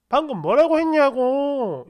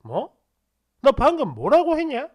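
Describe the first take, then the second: First: Louder, drawn-out angry insistence, retold; furious demand. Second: Retold icy challenge, rising on the question; suddenly icy. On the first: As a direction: press the question with mounting outrage. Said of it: "미친 듯이 화를 내더라고요". (화가 나서 목소리 높여 다그치듯) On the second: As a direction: turn cold and demand an explanation. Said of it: "엄청 싸늘하게". (갑자기 싸늘하게 되묻듯)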